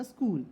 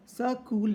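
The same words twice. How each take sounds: First: Said in the usual way. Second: "स्कूल" mispronounced with an extra vowel, sa-kool; demonstrating the faulty "स्कूल" as sa-kool; split consonant cluster. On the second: Shown as a demonstration. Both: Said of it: "स्कूल नहीं होता".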